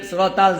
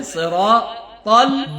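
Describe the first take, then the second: First: সিরাতাল run together, short and falling; spoken, unchanted সিরাতাল; mistaken quick reading. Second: Slow সিরাতাল, measured "raa", rising; chanted, careful সিরাতাল; correct reading. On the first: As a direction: show the fault: সিরাতাল with no measured "raa". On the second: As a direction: model সিরাতাল louder, each syllable full. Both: Shown as a demonstration. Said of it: "জানা হয়".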